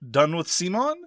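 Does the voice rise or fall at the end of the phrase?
rise. The voice rises at the end, like a question. The title is asking whether one is done with the company. The speaker calls it right. "The topic that I proposed was"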